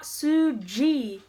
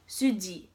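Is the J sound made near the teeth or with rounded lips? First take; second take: rounded lips; near teeth. First: The J is English-like with rounded lips. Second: The J is made near the teeth, D-like. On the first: It makes her sound Indian. The speaker calls it wrong. "not Suji" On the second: It sounds Korean. The speaker calls it right. "a D mixed with a J"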